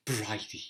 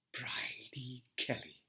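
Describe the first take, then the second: First: Said in the usual way. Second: A hushed, breathy whisper of the name; faint whisper, barely voiced. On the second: A narrator's reading. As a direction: breathe the name like a secret memory. Name recalled in memory.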